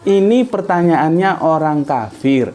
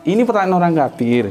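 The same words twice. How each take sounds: First: "Ini pertanyaannya orang kafir" said slowly, each word separate; slow emphatic repeat. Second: Said in the usual way. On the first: Shown as a demonstration. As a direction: stress "pertanyaannya" so the weight falls on the question, not the man. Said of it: "Ulangi, anu, aku ulangi, kamu perhatikan".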